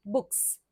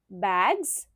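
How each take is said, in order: First: बुक्स ending in a crisp s; s sound plural. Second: बैग्स ending in a buzzing z; z sound plural. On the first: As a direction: finish बुक्स on a hissing s. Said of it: "यहाँ पर है स sound". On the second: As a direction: finish बैग्स on a voiced z. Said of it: "ये है ज sound के साथ". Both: Shown as a demonstration.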